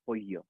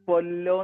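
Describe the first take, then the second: First: The double L is said as a Y sound. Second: The double L is said as an L sound. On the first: This is the Spanish way of reading it. "സ്പാനിഷിൽ വായിക്കേണ്ടത്" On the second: This is the English way of reading it. "ഇംഗ്ലീഷിൽ അത് വായിക്കുക"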